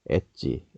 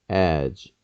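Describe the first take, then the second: First: The word ends with an added vowel sound. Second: The word ends on a consonant sound. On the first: The speaker calls it wrong. "엣지라고 많이들 하지 않습니까?" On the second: The speaker calls it right. "엣지라고 되지 않습니다"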